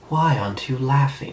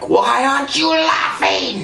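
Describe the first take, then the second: First: It is said in a tragic tone. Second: It is said in an angry tone.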